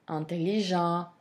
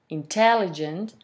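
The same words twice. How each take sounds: First: The stress is on the lengthened final syllable. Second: The stress falls before the final syllable. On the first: "in French language, they are stressed on the final syllable" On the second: "in English, those words um, are stressed on the first or second syllable"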